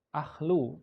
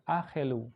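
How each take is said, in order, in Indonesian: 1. Tidak ada vokal yang terdengar di antara konsonan tengah. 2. Ada vokal pendek yang terdengar di antara konsonan tengah. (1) "harusnya ahlu" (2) "karena ada simbol meteg ... maka dia dibaca akhel, akhelu"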